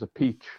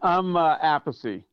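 First: The name sounds like the phrase 'a peach'. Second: The name is said the family's original way. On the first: This is the Italian pronunciation. "He says a peach. The Italian way" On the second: This is the family's traditional pronunciation. "That's the way my father pronounced it"

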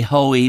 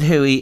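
First: The name sounds like 'hoe-ee'. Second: The name sounds like 'hoo-ee'. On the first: This is how other people say it. "Other people would say hoey" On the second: This is the local way where he comes from. "he pronounces it Huey"

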